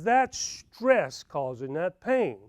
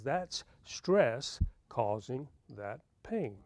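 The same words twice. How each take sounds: First: Slow, measured doctor's verdict; calm diagnosis. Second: Slow, soft, deliberate doctor's verdict; quiet calm diagnosis. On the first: Dentist friend slowly tells Sam his pain is stress. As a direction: spell it out slowly like a patient doctor. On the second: Dentist friend repeats quietly that the pain is stress. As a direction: say it slowly and gently, case closed. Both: Retold or imitated.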